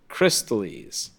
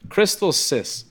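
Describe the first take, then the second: First: The word ends with a lis sound. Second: The word ends with a sis sound. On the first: The speaker calls it right. "It's Crystallis" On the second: The speaker calls it wrong. "I like Crystal Sis. Even though that's not even the way it's fucking read"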